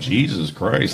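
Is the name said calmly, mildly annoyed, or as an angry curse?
mildly annoyed. It is said with mild, borderline annoyance. It is just barely over the line into a curse. "right on the line"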